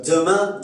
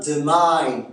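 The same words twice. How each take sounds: First: Said in the usual way. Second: "demain" ending in a gliding "aïn"; Québécois nasal diphthong. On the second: Shown as a demonstration. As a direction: say "demain" as de-maïn. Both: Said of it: "Le son un se prononce ein".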